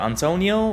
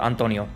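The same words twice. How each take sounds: First: The name is said with an English accent. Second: The name is said with a Spanish accent.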